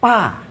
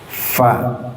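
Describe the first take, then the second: First: The consonant is stopped with no hiss. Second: The consonant is hissed with escaping breath. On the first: The speaker calls it wrong. "tak berdesis" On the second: The speaker calls it right. "desis, ada angin yang keluar, nafas"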